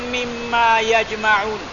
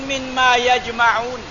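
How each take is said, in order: The two takes are said the same way.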